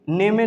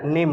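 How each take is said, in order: First: "नेमे" with the final E voiced; wrong reading. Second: "नेम" with the final E silent; correct reading. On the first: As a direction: say "नेमे" as ne-me, two syllables. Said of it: "नहीं पढ़ेंगे". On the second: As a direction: close "नेम" on the m, one syllable. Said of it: "नेम हो जाएगा". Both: Shown as a demonstration.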